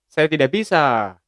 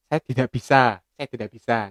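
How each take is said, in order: First: Brisk Ambon-accented "Saya tidak bisa", a bit higher and louder. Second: Javanese accent. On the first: Teacher demonstrating Ambon dialect to classmates, firm Ambon accent. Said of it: "kalau orang Ambon bilangnya". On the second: Teacher contrasting Javanese dialect for classmates, gentle Javanese accent. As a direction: say "Saya tidak bisa" gently like a Javanese speaker. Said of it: "kalau orang Jawa". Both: Shown as a demonstration.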